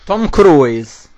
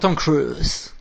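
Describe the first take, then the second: First: The name is said with an Italian accent. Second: The name is said with an American accent.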